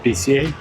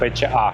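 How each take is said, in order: First: The letters are named as in English. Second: The letters are named as in Indonesian. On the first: Locals do not understand it. "local people never understand when you say B C A" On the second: This is how locals say it. "This is Bahasa Indonesia pronunciation"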